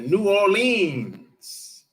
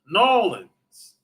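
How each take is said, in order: First: The name is said with every syllable clearly. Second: The name is squeezed into two short syllables. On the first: "Or some people say New Orleans" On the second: "as they some people say"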